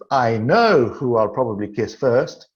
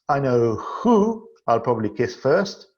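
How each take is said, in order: First: The stress is on the word know. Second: The stress is on the word who. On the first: The speaker is certain it will happen. "And in the second sentence" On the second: Among various options, there is one main target. "In the third sentence"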